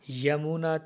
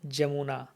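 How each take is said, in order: First: The word begins with a y sound. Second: The word begins with a j sound. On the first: Non-Bengali speakers say it this way. "Others will say Yamuna Tira" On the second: Bengali speakers say it this way. "better try to pronounce like Bengalis"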